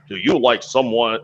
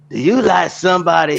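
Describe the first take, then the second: First: It is said in his own natural voice. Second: It is said imitating the other man's voice.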